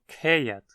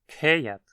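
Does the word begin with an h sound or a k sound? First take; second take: k sound; k sound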